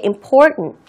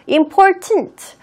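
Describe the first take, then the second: First: The middle t is weakened and barely released. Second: The middle t is pronounced fully and clearly. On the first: The speaker calls it right. "좀 더 정확하게" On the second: The speaker calls it wrong. "그렇게 틀린 발음은 아니에요"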